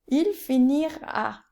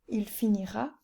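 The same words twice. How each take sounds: First: It is said with exaggerated emotional sounds. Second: It is said plainly, without emotional sounds.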